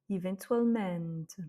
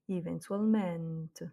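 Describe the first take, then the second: No difference in how they are said.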